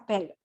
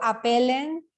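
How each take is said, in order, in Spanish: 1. La terminación escrita queda en silencio. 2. La terminación escrita se pronuncia en voz alta. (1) "Yo llego hasta appel" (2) "yo no digo apelen"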